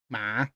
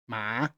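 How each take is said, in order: First: The pitch rises like a question. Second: The same.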